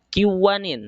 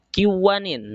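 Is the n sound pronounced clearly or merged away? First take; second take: merged; merged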